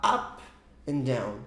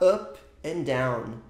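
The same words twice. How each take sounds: First: The vowel in up is said open. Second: The vowel in up is said closed. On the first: The speaker calls it right. "Você vai falar" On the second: The speaker calls it wrong. "você não vai falar"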